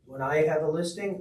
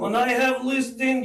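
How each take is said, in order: First: It is said in his own plain accent. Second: It is said in a put-on Russian accent.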